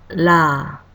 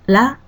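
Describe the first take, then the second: First: The vowel is held twice as long. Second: The vowel is held briefly.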